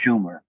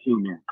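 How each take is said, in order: First: The word begins with an sh sound. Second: The word begins with a plain s sound. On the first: The speaker calls it right. "Actually, the Schumer" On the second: The speaker calls it wrong. "We've been saying it wrong forever"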